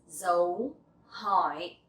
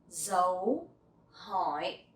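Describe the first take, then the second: No difference in how they are said.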